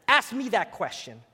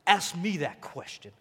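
First: Said in the usual way. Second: Lightly voiced Italian mob boss; half-hearted crime boss impression; The Godfather. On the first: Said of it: "I'm just gonna be me". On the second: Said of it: "Like The Godfather".

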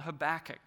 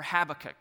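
First: "Habakkuk" as huh-BACK-uk, second syllable stressed; first pronunciation of Habakkuk. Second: "Habakkuk" as HAB-uh-kuk, front-stressed; alternative pronunciation of Habakkuk. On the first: Preacher naming the book to his church, "Habakkuk" stressed on BACK. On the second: Preacher offering the other version, "Habakkuk" stressed on HAB. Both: Shown as a demonstration. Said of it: "however you wanna say it".

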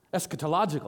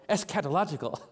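First: "eschatological" said quicker, with a lighter second syllable; "eschatological" with the weight held back for "log"; alternative accent placement. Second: "eschatological" with a fuller, weightier opening "es-kat"; "eschatological" spelled out as "ES-kat-a-LOG-ical"; alternative accent placement. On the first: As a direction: run "eschatological" together, easing off the second syllable. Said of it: "not sure where the accent goes". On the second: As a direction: give the first syllables of "eschatological" more weight. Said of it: "I've heard it both ways".

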